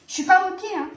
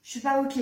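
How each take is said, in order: First: High, louder protest to the cat; raised-voice objection. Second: Said in the usual way. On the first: Real, not acted. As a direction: repeat it insistently, pitched well up.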